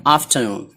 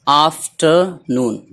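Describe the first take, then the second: First: Said in the usual way. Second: afternoon slowly, split before noon; word in parts. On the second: Shown as a demonstration. Teacher showing two joined words, afternoon in slow parts. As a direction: break afternoon into after and noon with gaps. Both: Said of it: "दोनों को मिला दिया गया".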